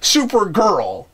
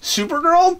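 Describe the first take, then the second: First: The 'super' part is given strong contrastive emphasis. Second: The word is said with ordinary, even emphasis. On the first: The speaker calls it wrong. "He goes Supergirl" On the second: The speaker calls it right. "instead of just Supergirl"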